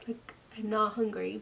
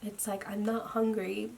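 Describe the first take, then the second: First: Not leaned on, hungry rising; stress on not. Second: Said in the usual way. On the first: Real, not acted. Telling viewers she had no appetite, stress on not. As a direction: push the word not, let hungry lift.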